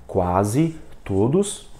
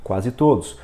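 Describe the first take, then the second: First: Very slow, QUASE and TODOS split by a pause; word by word. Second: QUASE TODOS run together without a gap; in one glance. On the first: Teacher shows the slow way to avoid, word by word. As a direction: read each word separately, dragging it out. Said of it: "em vez de você ler". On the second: Teacher shows two words taken at once, in one glance. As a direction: read both words as one unit. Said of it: "você dá um golpe de vista". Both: Shown as a demonstration.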